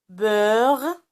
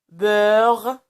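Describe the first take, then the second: The two takes are said the same way.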